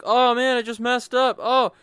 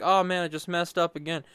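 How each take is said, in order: First: Loud high groan of a blunder; dismayed exclaim. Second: Said in the usual way. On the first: Retold or imitated. Gamer reacting to his mistake, loud dismay. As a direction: yelp it like you just botched a move. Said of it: "I'm like". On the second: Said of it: "and then I'm like".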